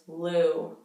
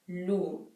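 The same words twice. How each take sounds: First: The vowel is loose with a relaxed jaw. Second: The vowel is tight and precise. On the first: "how like loose that is... super relaxed in my jaw" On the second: "Everything's much tighter. Everything's much more precise"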